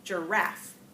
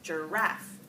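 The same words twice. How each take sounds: First: The stress is on the second syllable. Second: The stress is on the second syllable.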